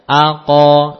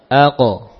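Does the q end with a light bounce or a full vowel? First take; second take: full vowel; light bounce. First: The q is followed by a full open vowel. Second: The q ends with a brief released bounce. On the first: The speaker calls it wrong. "aqo namanya harokat fathah" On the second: The speaker calls it right. "Setelah berbenturan, aqo, ya... Hanya yang penting lepas"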